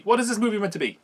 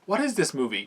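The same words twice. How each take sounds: First: High-pitched, incredulous question falling away; exasperated bafflement. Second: Mildly baffled, slightly raised question. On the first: Reviewer asking again what the film is meant to be, exasperated. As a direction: repeat it with rising disbelief. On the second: Reviewer reacting to a strange film clip, baffled. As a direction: ask it in real bewilderment. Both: Real, not acted.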